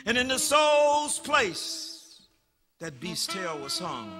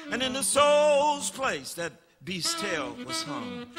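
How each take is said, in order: Both takes have the same delivery.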